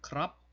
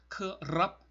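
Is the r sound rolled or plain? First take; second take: plain; rolled. First: The r sound is plain, not rolled. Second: The r sound is rolled with the tongue. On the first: This is the easier casual pronunciation locals often use. "좀 편하게 그냥 크랍" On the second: This is the standard pronunciation. "혀를 굴려서 내는 소리... 이런 식으로 발음을 하는 것이 정석적인 거죠"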